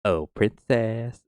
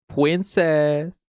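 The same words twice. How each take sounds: First: Slow, drawn-out "princess". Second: High, loud "pwincess" with r as w. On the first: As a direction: stretch out "princess" like a doting defender. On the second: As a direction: pitch it up into babyish mock devotion. Repeats it in sillier voice. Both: Acted.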